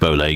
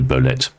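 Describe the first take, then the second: First: The name ends in an open vowel sound. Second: The name ends with a T sound. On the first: The speaker calls it wrong. "I'm going to stick with Bolay because that's how I've started" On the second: The speaker calls it right. "it's pronounced to rhyme with serviette"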